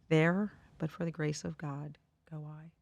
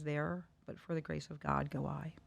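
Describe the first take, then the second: First: It is said at a louder volume. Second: It is said at a softer volume.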